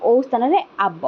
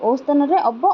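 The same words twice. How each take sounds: First: ଆବ said with a long open aa, not the short ଅ; ଆବ with a long aa vowel. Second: ଅବ said with a short open a, not the long ଆ; ଅବ with a short a sound. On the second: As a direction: say ଅବ with a short a vowel, set against ଆବ. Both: Shown as a demonstration.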